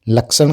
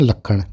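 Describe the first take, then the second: First: The middle consonant is the cluster 'ksh'. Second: The middle consonant is a single 'kh'. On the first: This is the standard Hindi form. "संयुक्त अक्षर क्ष के स्थान पर छ, क या ख लिखा जाता है" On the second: This is the Rajasthani form. "लक्षण को क्या बोलते हैं? लखण"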